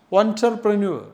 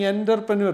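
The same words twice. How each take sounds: First: "entrepreneur" begun with a rounded "on" sound; correct pronunciation. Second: "entrepreneur" begun with "en" as in "enter"; mispronunciation. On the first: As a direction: say "entrepreneur" as "ontrepreneur". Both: Shown as a demonstration. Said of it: "The pronunciation is absolutely wrong".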